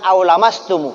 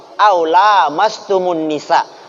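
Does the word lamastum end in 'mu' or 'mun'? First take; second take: mu; mun. First: The word ends in a bare 'mu' sound. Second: The word ends in 'mun', linked into nisa. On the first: The speaker calls it wrong. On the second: The speaker calls it right. "Perhatikan cara baca saya"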